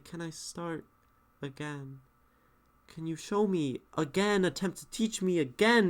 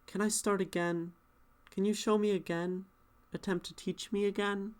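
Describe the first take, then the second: First: Each question is said faster than the one before. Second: All three questions are said at one even pace. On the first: The speaker calls it right. "That's speeding up" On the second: The speaker calls it wrong. "It's just like the same same thing. It's kind of boring"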